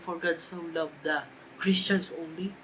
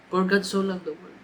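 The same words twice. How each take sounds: First: "Christians only" drawn out slowly with a rising tune; mock wrong version. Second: "For God so loved the world" with God leaned on and a falling close; stress on world. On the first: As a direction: linger on "Christians" and lift at the end. (mabagal na diin sa "Christians only") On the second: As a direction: press firmly on "God" and land "world". (diin sa "world") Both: Shown as a demonstration. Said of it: "Hindi nakalagay doon".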